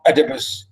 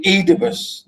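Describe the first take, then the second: First: Oedipus with a short E first, ED-i-pus; rejected pronunciation. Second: Oedipus as EE-di-pus, long EE first; English pronunciation. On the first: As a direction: open Oedipus on a short vowel, not EE. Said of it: "some other people pronounce it like this". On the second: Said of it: "in, uh, English we say". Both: Shown as a demonstration.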